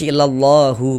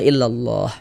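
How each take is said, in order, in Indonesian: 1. Katanya berakhir dengan vokal u. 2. Katanya berakhir dengan h mati yang tidak dibaca. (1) "Jangan baca illallahu baru berhenti" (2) "hurufnya itu kita matikan"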